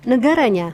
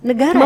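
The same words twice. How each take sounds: First: "Negaranya" let down at the end; falling ending. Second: "Negaranya" lifted at the end; rising ending. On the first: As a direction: drop the tune to close "Negaranya". ("Negaranya" dengan nada akhir turun) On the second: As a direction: let the tune climb on "Negaranya". ("Negaranya" dengan nada akhir naik) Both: Shown as a demonstration. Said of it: "terakhir itu ya".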